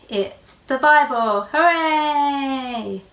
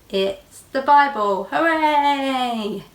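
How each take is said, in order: No difference in how they are said.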